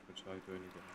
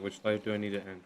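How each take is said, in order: First: Much softer, half to herself; muttered to self. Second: Said in the usual way. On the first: Real, not acted. Streamer, confused, repeats the question softly to herself. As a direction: repeat it under your breath, puzzled.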